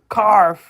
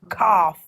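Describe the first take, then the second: First: The word is said with an added R sound. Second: The word is said without an R sound.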